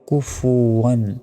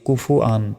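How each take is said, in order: First: The ending is said 'wan' with a w sound. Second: The ending is said 'an' with no w sound. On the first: The speaker calls it right. "তাহলে উচ্চারণ হবে কুফু ওয়ান" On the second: The speaker calls it wrong. "আমরা অনেকে কি বললি এখানে বলি যে কুফু আন, কুফু আন বলি, ভুল"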